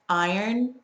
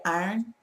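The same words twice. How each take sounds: First: It is said in a general, non-Southern way. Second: It is said in a local Southern way.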